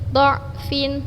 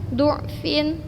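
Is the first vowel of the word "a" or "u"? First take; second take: a; u. First: The first vowel is an open "a" sound. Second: The first vowel is a rounded "u" sound. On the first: "Boleh huruf dha-nya fathah" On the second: "Boleh dibaca dengan harokat dhammah"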